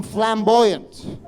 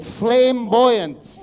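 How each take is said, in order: First: Said in the usual way. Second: Flamboyant said slowly as "flame-buoyant"; split pronunciation. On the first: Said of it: "Even that was misquote". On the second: Shown as a demonstration. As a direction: draw out flamboyant, first part rhyming with "name". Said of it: "Flame like your head".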